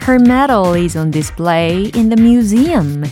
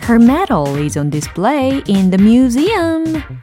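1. 낮고 차분한 에너지로 말합니다. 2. 가장 높고 생생한 에너지로 말합니다.

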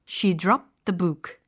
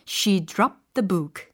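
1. 단어들이 하나의 흐름으로 이어져 발음됩니다. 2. 단어들이 하나의 흐름으로 이어져 발음됩니다.

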